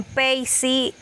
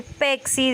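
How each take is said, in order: First: "peisi" instead of pexi; epenthesis. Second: Said in the usual way. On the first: Shown as a demonstration. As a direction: say "peisi" with an i added, slowly. ("peisi" con i añadida) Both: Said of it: "en vez de decir pexi".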